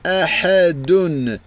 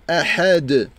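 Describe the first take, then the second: First: The word ends with the full 'dun' ending. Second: The word stops on a silent final d. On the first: The reading continues without a stop. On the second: The reader stops at the end of the verse.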